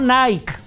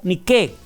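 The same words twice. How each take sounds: First: The name is said with English-style vowel sounds. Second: The name is said with Greek-style vowel sounds. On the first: The speaker calls it wrong. "no Nike, porque no es inglés" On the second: The speaker calls it right. "es griego"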